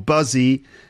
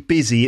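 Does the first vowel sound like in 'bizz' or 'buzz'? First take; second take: buzz; bizz. First: The first vowel sounds like the vowel in 'buzz'. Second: The first vowel sounds like the vowel in 'bizz'. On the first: The speaker calls it wrong. "it's not buzzy or buzzy, despite the U" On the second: The speaker calls it right. "It's actually busy. It sounds like it's got an I in it"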